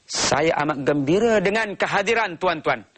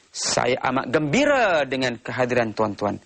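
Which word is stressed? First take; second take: tuan-tuan; gembira. First: The stress is on the word tuan-tuan. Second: The stress is on the word gembira. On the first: The speaker shows respect for the audience. "dia ingin menunjukkan dia menghormati tuan-tuan" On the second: The speaker highlights how happy he is. "Dia cuba menekankan perkataan gembira"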